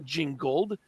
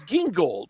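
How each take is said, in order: First: The name starts with a j sound. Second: The name starts with a hard g sound. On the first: The speaker calls it wrong. "it's not Gingold" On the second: The speaker calls it right. "it's it's Gingold"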